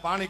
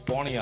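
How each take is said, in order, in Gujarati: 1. આ શબ્દમાં 'a' સ્વર બોલાય છે. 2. આ શબ્દમાં 'o' સ્વર બોલાય છે. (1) "આને અમે પાણી કહીએ" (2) "એમ કે છે કે પોણી આલો"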